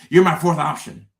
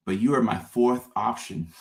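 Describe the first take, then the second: First: Louder, higher, pushed punchline; emphatic repeat. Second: Said in the usual way. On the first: Acted. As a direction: hammer it home.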